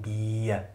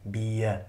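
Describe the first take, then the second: Both takes have the same delivery.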